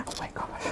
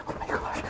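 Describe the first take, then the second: No difference in how they are said.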